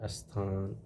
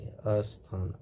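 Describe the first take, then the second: First: It starts directly with the consonant cluster. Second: A short vowel is added before the cluster. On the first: The speaker calls it right. "इसमें अ नहीं लगाना चाहिए" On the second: The speaker calls it wrong. "अ लगा के... ये अशुद्ध होता है"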